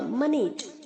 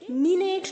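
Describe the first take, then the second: First: The vowel after m is a reduced half vowel. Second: The vowel after m is a full 'i'. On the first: The speaker calls it right. "Half ई की तरह sound करेगा" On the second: The speaker calls it wrong. "मिनेट नहीं होगा"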